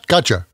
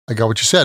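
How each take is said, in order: First: The words are squeezed into one short casual word. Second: Every word is said out fully and separately.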